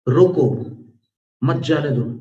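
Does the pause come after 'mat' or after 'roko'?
after roko. The pause comes right after 'roko'. Stop him; do not let him go.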